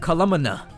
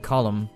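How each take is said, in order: First: The final N is pronounced. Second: The final N is silent.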